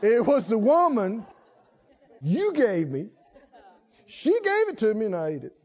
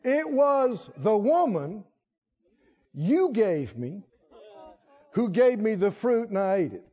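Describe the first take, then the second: First: The last part is rushed out fast. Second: The last part is said at normal speed.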